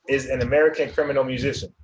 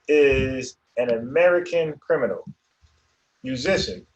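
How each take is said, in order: First: There is no pause after 'criminal'. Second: There is a pause after 'criminal'.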